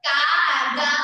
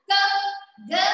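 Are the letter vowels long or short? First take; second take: long; short. First: The vowel after each consonant is long. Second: The vowel after each consonant is short. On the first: The speaker calls it wrong. "కా గా మ అని చదవద్దు" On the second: The speaker calls it right. "అలాగే చదవాలి"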